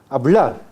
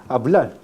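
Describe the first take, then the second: Both takes have the same delivery.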